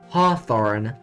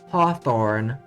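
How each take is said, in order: The two takes are said the same way.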